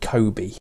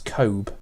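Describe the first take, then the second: First: The final E sound is clearly pronounced. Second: The final E sound is left silent. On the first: "some people would call it Kobe" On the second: "I personally would not pronounce the E"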